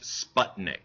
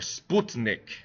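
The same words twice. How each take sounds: First: It is pronounced the usual American English way. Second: It is pronounced the way Russians say it.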